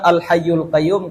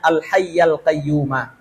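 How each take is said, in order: First: The first word ends with the vowel u. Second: The words end with the vowel a. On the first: The attributes describe the pronoun 'he'. "kalau misalkan kita bawa kepada huwa" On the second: The attributes describe God directly. "kalau misalkan kita mau na'at dan al-hayy dan al-qayyum itu kepada Allah"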